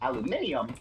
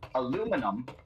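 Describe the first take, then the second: First: It is said with an extra syllable. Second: It is said without the extra syllable. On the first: "aluminium does pronounce them" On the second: "there's a couple letters that you're not pronouncing there"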